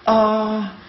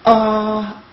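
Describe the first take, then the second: First: The vowel starts with a hard throat catch. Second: The same.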